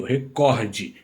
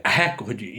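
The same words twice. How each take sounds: First: "recorde" with COR stressed; stress on middle syllable. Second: "recorde" said as RÉ-cor-de; "recorde" mispronounced with front stress, RÉ-cor-de; stress on first syllable. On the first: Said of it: "na sílaba do meio". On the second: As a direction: hit the opening syllable of "recorde", open e. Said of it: "Se tivesse". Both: Shown as a demonstration.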